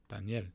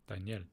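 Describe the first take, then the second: Both takes have the same delivery.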